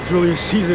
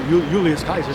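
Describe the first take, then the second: First: The name begins with a soft s sound. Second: The name begins with a hard k sound. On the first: The speaker calls it wrong. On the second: The speaker calls it right.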